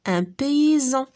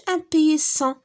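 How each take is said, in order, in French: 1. La consonne du milieu se prononce z. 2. La consonne du milieu se prononce s. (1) "la lettre S se prononce z" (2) "ما نقولوش un paysan"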